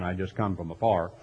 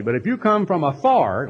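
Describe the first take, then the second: First: Lower, softer mock fireman saying "afar"; fireman impression. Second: Said in the usual way. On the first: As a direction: drop into a low, soft joke voice of the fireman. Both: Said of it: "like the famous noonday volunteer fireman".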